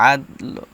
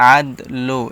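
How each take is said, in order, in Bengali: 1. শেষ স্বরটি শুধু একটু হালকা আভাস। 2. শেষ স্বরটি একটি পূর্ণ, স্পষ্ট o। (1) "হালকা উচ্চারণ হবে" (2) "পুরোপুরি লো বলা যাবে না। যেমন আদ লো এরকমভাবে বলা যাবে না"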